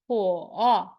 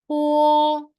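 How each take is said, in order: First: It is said with the third tone. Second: It is said with the first tone. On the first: "Third tone" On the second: "and the first tone"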